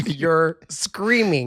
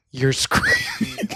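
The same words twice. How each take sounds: First: Said in the usual way. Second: Very high, slow mock squeal; imitating husband. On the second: Husband telling her off at dinner, high mock squeal. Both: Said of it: "he goes".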